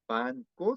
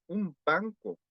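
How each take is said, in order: First: "banco" broken as "ban / co"; pause between syllables. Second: "un banco" run together as "umbanco"; linked without pause. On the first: Teacher showing the Korean mistake, "banco" split by syllable. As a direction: chop "banco" in two with a gap after N. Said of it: "suele dar pausa entre sílabas". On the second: Teacher correcting the mistake, "un banco" smoothly joined. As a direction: flow through "un banco", M before B, no gap in "banco". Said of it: "Cuando no hay pausa". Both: Shown as a demonstration.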